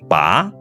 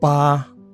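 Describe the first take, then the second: First: The pitch rises from middle to high. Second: The pitch stays high and level. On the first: It means to pull out. "Bunyi kedua" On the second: It means the number eight. "Bunyi pertama"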